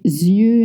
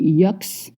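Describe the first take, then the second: First: The word ends in a vowel with no ks. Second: The word ends with a pronounced ks sound. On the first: The speaker calls it right. "you don't pronounce the X" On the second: The speaker calls it wrong. "We don't say yucks"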